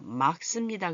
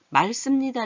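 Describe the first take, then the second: First: The first syllable ends in k, then tense s. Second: The first syllable does not end in k. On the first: The speaker calls it right. "그래야 돼요. 막 얘가 대표 발음이 나고 씁니다" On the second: The speaker calls it wrong. "이렇게 하면 안 돼요"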